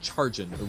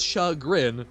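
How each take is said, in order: First: The first syllable sounds like 'char'. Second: The first syllable does not sound like 'char'. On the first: The speaker calls it wrong. "I think Chargen was how she how she pronounced it" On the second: The speaker calls it right. "it's chagrin, not char"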